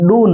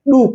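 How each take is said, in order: First: The vowel sounds like 'oh'. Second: The vowel sounds like 'oo'. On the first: The speaker calls it wrong. "D O को डो नहीं पढ़ा जाता है" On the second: The speaker calls it right. "डू पढ़ा जाता है"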